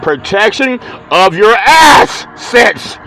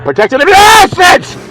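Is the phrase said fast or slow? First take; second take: slow; fast. First: The phrase is said at a slower pace. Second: The phrase is said at a fast pace. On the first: "say it a little bit slower" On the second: "sometimes you talk you talk too fast"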